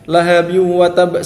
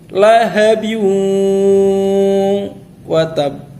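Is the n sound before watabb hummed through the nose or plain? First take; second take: plain; hummed. First: The n merges plainly without a nasal hum. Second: The n merges with a long nasal hum. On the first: The speaker calls it wrong. "tidak dibaca dengan gunnah... salah" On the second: The speaker calls it right. "digunnahkan, didengungkan"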